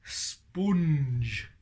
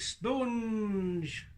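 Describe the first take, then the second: First: Said in the usual way. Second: "Sponge" said as "stonge", higher; puppet's "stonge". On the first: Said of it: "Go on, you say it then". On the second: Shown as a demonstration. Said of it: "the way I say sponge".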